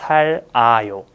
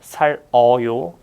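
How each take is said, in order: First: The second syllable has an 'a' vowel. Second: The second syllable has an 'eo' vowel. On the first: The speaker calls it right. "it's 살아요" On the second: The speaker calls it wrong. "So it's not 살어요"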